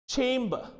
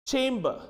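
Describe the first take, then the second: No difference in how they are said.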